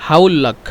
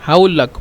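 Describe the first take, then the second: The two takes are said the same way.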